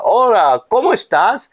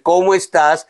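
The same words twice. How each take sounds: First: "¿cómo estás?" with a strongly rising question tune. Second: Said in the usual way. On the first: Shown as a demonstration. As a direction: lift "cómo" high and let "estás?" rise at the end. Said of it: "tienes una palabra". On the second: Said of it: "tiene el signo de interrogación al comienzo y al final".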